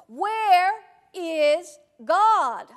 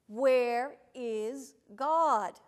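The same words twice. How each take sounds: First: It is said with the voice raised most. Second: It is said more forcefully and loudly.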